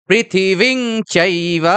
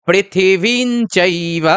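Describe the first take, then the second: Both takes have the same delivery.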